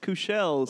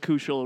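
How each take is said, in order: First: The name is pronounced in a fancy way. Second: The name is pronounced in a plain way. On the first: The name was changed to seem more refined. "no, it's Kushel, so it'd sound fancy" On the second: This is the original form of the name. "Sounds like it was Kushel originally"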